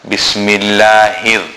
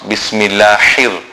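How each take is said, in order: No difference in how they are said.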